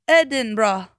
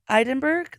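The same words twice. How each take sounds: First: The word is said with three syllables. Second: The word is not said with three syllables. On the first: The speaker calls it right. "apparently pronounced Edinburgh. Three syllables" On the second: The speaker calls it wrong. "is that how you originally said it? Yeah"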